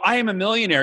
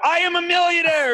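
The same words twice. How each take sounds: First: It is said in a plain, calm way. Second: It is said with more force and effort.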